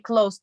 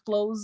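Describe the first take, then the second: First: The word ends with a soft s sound. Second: The word ends with a buzzing z sound. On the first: Near, as in close friends. The speaker calls it right. "We say close" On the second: To shut, as in shutting a door. The speaker calls it wrong. "not close, because close is close the door"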